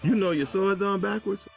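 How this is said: It ends rising, as a question.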